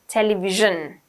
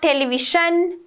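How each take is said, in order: First: The middle consonant is a voiced 'zh' sound. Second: The middle consonant is a voiceless 'sh' sound. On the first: The speaker calls it right. "J, television" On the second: The speaker calls it wrong. "it's not television... So it's not sh"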